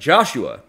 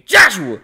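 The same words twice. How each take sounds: First: The name is called calmly and gently. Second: The name is called harshly and sharply.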